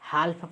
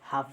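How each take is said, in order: First: The L sound is pronounced before the F. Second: The L sound is silent before the F. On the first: The speaker calls it wrong. "हाल्फ पढ़ेंगे तो incorrect हो जाएगा" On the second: The speaker calls it right. "हाफ पढ़ेंगे तो ... आप सही पढ़ पा रहे हैं"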